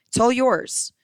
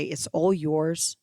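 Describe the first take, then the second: First: Higher and louder, leaning on all; excited offer. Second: Said in the usual way. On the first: Acted. Seller tempting a broke listener, excited and loud. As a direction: sell it, punch all with a lift and fall.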